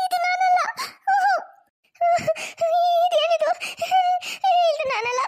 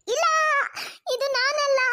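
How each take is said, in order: First: Crying. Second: Dismayed denial. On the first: Wife sees her bald face in the mirror, wailing in tears. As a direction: wail the denial through tears. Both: Acted. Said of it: "ಅಷ್ಟೊಂದು ಅಳ್ಬೇಡ ಶ್ರುತಿ".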